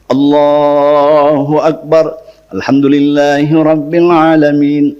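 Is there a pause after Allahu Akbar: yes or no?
no. It runs on with no pause between phrases.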